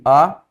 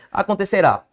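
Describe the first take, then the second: First: "Acontecerá" split into separate syllables with long pauses. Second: Said in the usual way. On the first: Shown as a demonstration. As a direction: break "Acontecerá" into a-con-te-ce-rá, one piece at a time. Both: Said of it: "Separe comigo".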